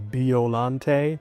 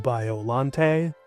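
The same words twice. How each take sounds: First: It uses a pronunciation closer to Japanese. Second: It blends both, keeping the Bio part clear. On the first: "to be more accurate to the Japanese word" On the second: "meet in the middle"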